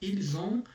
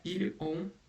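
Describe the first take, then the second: First: The two words are joined with a linking sound. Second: The two words are said separately, not linked. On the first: The speaker calls it right. "É ils ont, Puxou" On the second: The speaker calls it wrong. "Não é"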